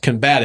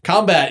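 First: The stress is on the last syllable. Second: The stress is on the first syllable. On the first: It names the action of fighting. "you want to put the emphasis on the last syllable if it's to fight" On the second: It names a fight as a thing. "it's the noun"

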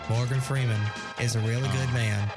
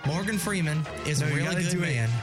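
First: The voice is pitched low and deep. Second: The voice is pitched higher, not very deep.

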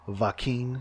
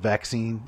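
First: It is said with a thick German accent. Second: It is said in a plain native accent. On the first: "He has like a very thick German accent" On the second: "instead of vaccine"

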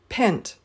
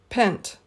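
Both takes have the same delivery.

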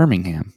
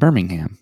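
First: It is said in an American accent. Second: It is said in an American accent.

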